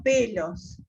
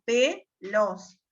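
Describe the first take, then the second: First: Said in the usual way. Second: "pelos" partido en dos, con pausa larga tras "pe"; por sílabas. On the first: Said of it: "por ejemplo". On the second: Shown as a demonstration. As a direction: separa "pelos" en pe y los, marcando la penúltima. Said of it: "se acentúa en la penúltima". ("pelos" silabeado lento, pe... los)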